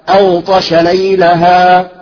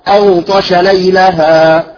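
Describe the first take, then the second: No difference in how they are said.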